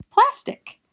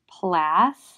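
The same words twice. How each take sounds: First: "plastic" run together quickly, no break; high, loud, joined-up "plastic"; blended word. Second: "plastic" as plas, long pause, tic; "plastic", syllable by syllable; split syllables. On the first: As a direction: say "plastic" as one whole word. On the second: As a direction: break "plastic" into two loud beats. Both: Shown as a demonstration. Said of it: "becomes short when we see".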